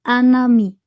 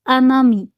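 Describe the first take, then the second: No difference in how they are said.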